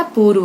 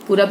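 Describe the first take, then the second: First: पूर्व said as purv with र्व; पूर्व, the right form; correct form. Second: पूरब said as purab; पूरब, the wrong form. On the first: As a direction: say पूर्व with a clear rv cluster. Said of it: "पूर्व होता है". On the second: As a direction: say पूरब with a plain ब ending. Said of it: "पूरब नहीं होता". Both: Shown as a demonstration.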